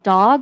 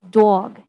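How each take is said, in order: First: The vowel is said with little lip rounding. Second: The vowel is said with strong lip rounding. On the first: "Instead of dog" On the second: "the vowels, again, are very rounded"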